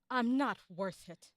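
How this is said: It sounds sad.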